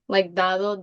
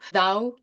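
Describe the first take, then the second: First: The d sound before the final o is kept. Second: The d sound before the final o is dropped. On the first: This is the standard form. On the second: This is how the speakers actually say it.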